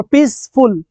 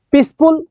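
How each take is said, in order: First: peaceful slowly split, পিস, ফুল; two separate syllables. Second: Said in the usual way. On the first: Shown as a demonstration. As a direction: pause inside peaceful after পিস. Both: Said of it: "two syllable".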